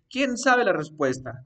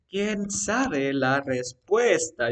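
First: Said in the usual way. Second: Slow, drawn-out example question; slow dictation. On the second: Shown as a demonstration. Teacher spells out an example question for the student, slow dictation. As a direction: stretch each word out as if dictating.

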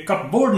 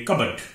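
First: कपबोर्ड as cup plus board; wrong pronunciation. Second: कबर्ड as CUB-urd, silent p; correct pronunciation. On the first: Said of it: "ये कपबोर्ड नहीं है". (गलत उच्चारण, कप और बोर्ड जोड़कर कपबोर्ड) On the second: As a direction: say कबर्ड with a reduced last vowel. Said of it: "इसे बोलेंगे कबर्ड". (सही उच्चारण, बिना प के कबर्ड) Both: Shown as a demonstration.

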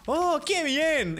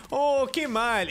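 First: High, drawn-out cartoon delight; badly imitated slow rejoicing; Homer. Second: Slow cartoon lament, slightly raised; badly imitated mock dismay; Homer. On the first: Player recites the Homer meme, high mock delight. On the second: Player recites the Homer meme, drawn-out lament.

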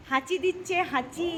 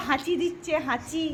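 Both takes have the same delivery.

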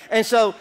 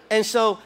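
The two takes are said the same way.

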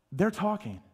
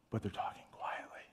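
First: Said in the usual way. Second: Hushed, breathy whisper; demonstrating a quiet whisper. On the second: Shown as a demonstration. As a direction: whisper it as if not to be overheard.

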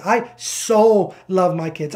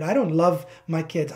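First: "so" stretched out and louder; slow down and lean hard on "so"; long, emphatic "so" before the rest; stress on SO. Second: Said in the usual way. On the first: Shown as a demonstration. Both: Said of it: "The emphasis on that word so".

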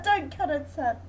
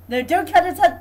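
First: Said in the usual way. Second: Loud, urgent yell at the game; shouting. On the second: Real, not acted. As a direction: shout the warning. Yelling at the game.

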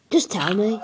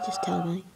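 First: Said in the usual way. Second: Whispered repeat. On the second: Shown as a demonstration. Telling viewers to report audio issues, whispered. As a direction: drop to a breathy whisper.

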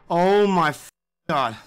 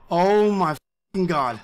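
Both takes have the same delivery.

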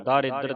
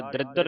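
First: ਦਾਰਿਦਰ said daa-ri-dar; long first vowel. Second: ਦਰਿਦਰ said dridar, first vowel squeezed out; wrong short reading. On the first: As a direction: open long aa after the d in ਦਾਰਿਦਰ. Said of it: "ਇੱਥੇ ਦੱਦੇ ਨੂੰ ਕੰਨਾ ਲੱਗਾ ਹੈ". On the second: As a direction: run d and r together in ਦਰਿਦਰ. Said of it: "ਦਰਿਦਰ ਨਹੀਂ ਪੜਨਾ ਇਹਨੂੰ". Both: Shown as a demonstration.

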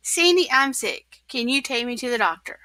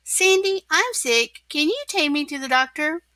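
First: Lightly mimicked plea, falling at the end; quick recited echo of the caller; quoting back quickly. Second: Higher-pitched, hurried plea; lightly acted sick caller; asking for help. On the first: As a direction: rattle it off as a quote. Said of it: "faster than you can say". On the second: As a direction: call a friend, ending on a question. Sick SpongeBob phones friend for help. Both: A narrator's reading.

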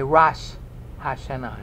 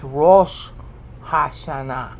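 First: "Rosh" as rahsh, with an open A, before "Hashanah"; popular pronunciation. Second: "Rosh" with a long rounded O, then "Hashanah" as ha-sha-NA; Hebrew pronunciation. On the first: Teacher shows how they say it, "Rosh" with an ah. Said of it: "But they say". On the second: Teacher gives the Hebrew, "Rosh" as a drawn-out rohsh. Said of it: "in the Hebrew". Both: Shown as a demonstration.

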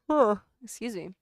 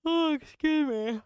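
First: Said in the usual way. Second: Surprised excuse me. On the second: Real, not acted.

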